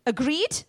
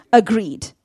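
First: Agreed? with a rising question tune; preacher invites agreement with a lifted Agreed?; asking tune. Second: Agreed. firm, falling and louder; preacher confirms it with a firm falling Agreed; answering tune. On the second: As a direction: answer your own Agreed. with a settled fall. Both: Shown as a demonstration.

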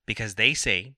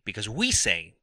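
First: Said in the usual way. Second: "we" jumps up in pitch; stress on WE. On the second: Real, not acted. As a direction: lean hard on "we", pitched up. Self-correction from they to we.

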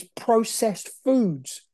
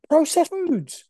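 First: Said in the usual way. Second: High-pitched incredulous repeat; appalled disbelief. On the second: Real, not acted. Telling viewers about modern diets, appalled. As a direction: hit "Processed foods" high, in disbelief. Repeats it, then says it's insane.

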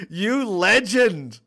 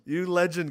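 First: A slow, stretched-out "You legend", higher and louder; drawn-out praise. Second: Said in the usual way. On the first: Real, not acted. Streamer hails the fan who made the playlist, slow and drawn out. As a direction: savour each word of the praise.

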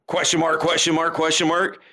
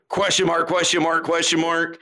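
Both takes have the same delivery.

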